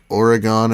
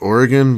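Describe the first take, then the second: First: It is said the way East Coast people say it. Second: It is said the way local people say it. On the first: "people from the other side of the country, they'll say like Oregon" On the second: "Oregon is pronounced like Oregon"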